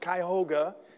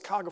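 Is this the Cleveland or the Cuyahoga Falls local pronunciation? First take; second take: Cleveland; Cuyahoga Falls. First: It is said the way Cleveland locals say it. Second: It is said the way Falls locals say it. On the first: "You go up towards Cleveland, it's Cuyahoga" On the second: "somebody from the falls says Cuyahoga Falls"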